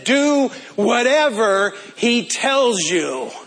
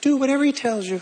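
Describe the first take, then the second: First: It is said in a masculine voice. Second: It is said in a feminine voice.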